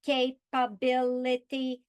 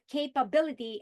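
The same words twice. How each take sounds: First: Capability split into five slow, even robot syllables, ca-pa-bi-li-ty. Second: Said in the usual way. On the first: Shown as a demonstration. Teacher showing students how to count syllables, robotic and slow. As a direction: tap out each beat of capability like a robot. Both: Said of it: "If I speak like a robot".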